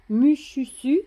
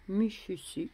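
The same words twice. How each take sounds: First: Mushusu called out high and loud, rising at the end; excited reveal of the name; name announced. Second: Said in the usual way. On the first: Shown as a demonstration.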